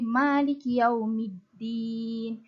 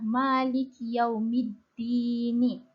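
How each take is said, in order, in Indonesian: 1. Vokal terakhir dihilangkan setelah vokal panjang. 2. Kata terakhir berakhir dengan vokal pendek. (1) "kalau kita matikan uh, ad-din tu, dia akan jadi" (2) "konsep asas asal ayat itu adalah"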